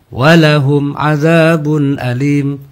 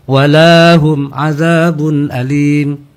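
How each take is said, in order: First: The 'la' syllable has a short vowel. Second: The 'la' syllable has a long vowel. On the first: They will receive a painful punishment. The speaker calls it right. "lamnya harus dibaca pendek" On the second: They will not receive a painful punishment. The speaker calls it wrong. "tidak boleh"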